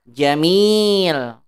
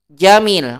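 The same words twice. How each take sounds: First: The 'i' vowel is held long. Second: The 'i' vowel is cut short. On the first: The speaker calls it right. "Panjangin gitu" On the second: The speaker calls it wrong. "Salah kalau mat bacanya begini"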